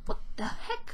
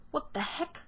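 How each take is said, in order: First: Much higher, breathy squeak; squeaky high. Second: Said in the usual way. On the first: Real, not acted. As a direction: squeak the exclamation way up. Repeated exclamation, squeaky take. (hohes, gehauchtes Quietschen)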